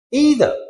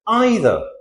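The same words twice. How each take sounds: First: EITHER starting like "ee", "EE-ther"; American pronunciation. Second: EITHER starting like "eye", "EYE-ther"; British pronunciation. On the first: Teacher shows the American English form, EE pronunciation. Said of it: "American English". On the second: Teacher shows the British English form, EYE pronunciation. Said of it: "British English, it is". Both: Shown as a demonstration.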